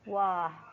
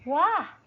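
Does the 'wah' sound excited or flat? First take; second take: flat; excited. First: It sounds flat and unexcited, without high pitch. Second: It sounds happy and excited, with high pitch. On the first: The speaker calls it wrong. "Jangan pula" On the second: The speaker calls it right.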